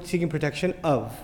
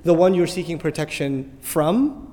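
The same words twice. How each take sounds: First: Of marked, then a falling close; seeking protection of, with of stressed. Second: From given the weight at the phrase end; the one you're seeking protection from, with from stressed. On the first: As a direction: land on of as a correction. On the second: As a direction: lean on from, slow and deliberate. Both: Shown as a demonstration. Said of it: "the of is done, and the from is coming now".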